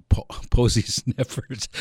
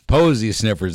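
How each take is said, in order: First: Slow, laughing through the words; giggling as he corrects himself. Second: "Posy sniffers" said louder and firm, falling at the end; emphatic repeat. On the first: Radio host laughing at his own slip on air. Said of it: "Man, I gotta be careful here on the air". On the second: Host loudly insisting on "Posy sniffers" on air. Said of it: "that's what I said". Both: Real, not acted.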